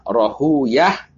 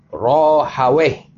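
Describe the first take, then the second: First: The name ends with the sounds 'uyah'. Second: The name ends with the sounds 'aweh'. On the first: The speaker calls it right. "bisa dibaca dua. Rohuyah atau Rohaweh" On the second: The speaker calls it wrong. "bisa dibaca dua. Rohuyah atau Rohaweh"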